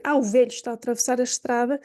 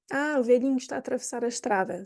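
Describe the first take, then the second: First: Said in the usual way. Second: Softly and kindly, velhinho said gently; kind, soft phrasing. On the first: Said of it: "Se eu for dizer". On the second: Shown as a demonstration. Teacher shows the friendly way to say velhinho, softer. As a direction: say it as if fond of him. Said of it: "vamos dizer velhinho".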